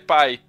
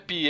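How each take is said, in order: First: The vowel sounds like "ai", as in "pie". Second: The vowel sounds like "ee", as in "pee". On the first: The speaker calls it right. "é pai" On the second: The speaker calls it wrong. "E não é Pi"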